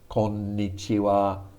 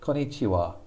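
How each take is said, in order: First: The n sound is held for a full beat. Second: The n sound is short, not held. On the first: The speaker calls it right. "You need to pause over both of those N's" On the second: The speaker calls it wrong. "he always said, konnichiwa ... that sounds really bad"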